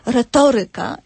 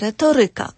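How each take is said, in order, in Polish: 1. Akcent pada na przedprzedostatnią sylabę. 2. Akcent pada na przedostatnią sylabę. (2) "nie retoryka"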